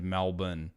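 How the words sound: It is said with an Australian pronunciation. "as we say it"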